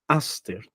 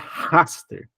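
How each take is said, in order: First: The word begins directly with a vowel. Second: The word begins with a breathy h sound. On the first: The speaker calls it right. "Eu tenho que falar Aster" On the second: The speaker calls it wrong. "Então eu não posso falar Raster"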